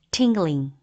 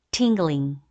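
No difference in how they are said.

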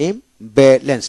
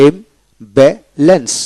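First: Said in the usual way. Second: ইমব্যালেন্স slowly split into three syllables. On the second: Shown as a demonstration. Teacher shows three syllables, saying ইমব্যালেন্স slowly in parts. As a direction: break ইমব্যালেন্স into three clear beats. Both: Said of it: "তিনটে syllable".

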